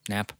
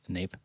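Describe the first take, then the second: First: The vowel is a short 'a' sound. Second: The vowel is a long 'ay' sound.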